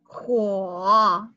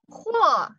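First: The pitch dips low then comes back up. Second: The pitch falls sharply through the syllable. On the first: "The third tone" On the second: "How do we pronounce this in the fourth tone?"

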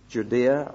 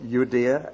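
First: Judea is said with a usual anglicized pronunciation. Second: Judea is said with a Jewish-style pronunciation.

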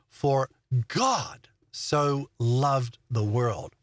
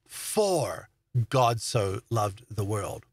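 First: The stress is on the word God. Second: The stress is on the word for.

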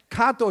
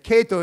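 First: The name is pronounced a non-American way. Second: The name is pronounced the American way. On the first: The speaker calls it right. "Kato is the right way to pronounce" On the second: The speaker calls it wrong. "Kato is American way"

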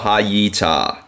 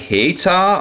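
First: The word is said in three syllables. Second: The word is said in two syllables. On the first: "three syllables" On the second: "two syllables"

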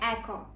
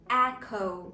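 First: The final vowel is a pure, unchanging o. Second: The final vowel glides as a diphthong. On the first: The speaker calls it wrong. "важливо прочитати його не еко" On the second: The speaker calls it right. "тобто додати дифтонг"

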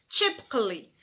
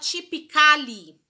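First: The a before -lly is silent. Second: The a before -lly is pronounced. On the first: The speaker calls it right. "a gente vai falar sem essa letrinha A" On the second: The speaker calls it wrong. "A gente não fala"

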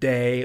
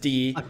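First: The name is said with an 'ay' vowel. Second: The name is said with an 'ee' vowel. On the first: The speaker calls it wrong. "I always mispronounce their contributions as Day" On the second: The speaker calls it right. "but in real life, it's Dee"

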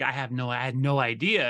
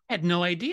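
First: It sounds heavy and weighed down. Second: It sounds bright and uplifted. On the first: The discovery feels serious and burdensome. "you could feel the weight of it" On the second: The discovery feels good and empowering. "you almost feel yourself standing up straighter"

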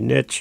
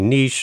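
First: It is said the American way. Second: It is said the Canadian way.

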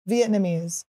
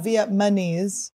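First: The N and M sounds are in normal order. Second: The N and M sounds are swapped. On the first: The speaker calls it right. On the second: The speaker calls it wrong.

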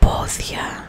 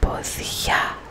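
First: The stress is on the first syllable. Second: The stress is on the last syllable. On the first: It means feet. "If the accent was on the o" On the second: It means apron. "The accent is on the a"

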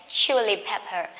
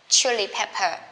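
Both takes have the same delivery.

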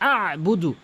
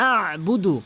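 Both takes have the same delivery.

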